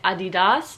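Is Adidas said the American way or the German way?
German. The brand name is said the German way. "They say Adidas"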